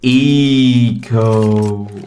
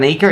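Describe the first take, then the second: First: The word is said slowly and drawn out. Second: The word is said at normal speed.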